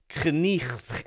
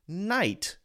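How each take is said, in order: First: An older pronunciation with a throaty sound before t. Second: The modern pronunciation, rhyming with night. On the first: This is how the word was said centuries ago. "We don't say knicht anymore" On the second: This is how the word is said today. "We say knight"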